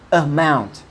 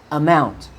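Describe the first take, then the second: The two takes are said the same way.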